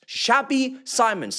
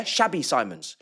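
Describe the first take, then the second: First: "Shabby Simons" slow, drawn out, stress on "Shabby"; mocking nickname. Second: Said in the usual way. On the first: Shown as a demonstration. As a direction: stretch "Shabby" out to mock him. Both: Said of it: "He's gonna be called Xabi Simons".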